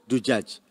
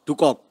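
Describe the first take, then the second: First: The word is said with j sounds. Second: The word is said with k sounds. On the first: The speaker calls it right. "Jim kan?" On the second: The speaker calls it wrong. "dia mengganti jim itu ke kof"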